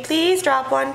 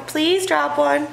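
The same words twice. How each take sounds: First: Said in the usual way. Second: Slowed-down pleading for the dog; slow begging dog voice. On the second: Shown as a demonstration. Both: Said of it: "Lady saying".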